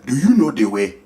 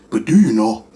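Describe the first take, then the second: First: "you" leaned on in "Do you know the way?", mock African accent; stress on you. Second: "do" pressed and lower in "But do you know?", falling; stress on do. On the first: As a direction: press "you" in a meme accent. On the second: Acted. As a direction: push "do" as a teasing question. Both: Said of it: "I might as well join in too".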